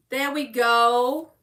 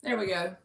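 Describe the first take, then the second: First: Slow, stretched GO with a lift at the end; drawn-out announcing. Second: Low, soft murmur; quiet self-talk. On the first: Reader showing the pulled card, drawn-out announcing. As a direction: say it out loud, stretching GO. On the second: Reader pulling her one, quiet self-talk. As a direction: say it under your breath to yourself. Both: Real, not acted.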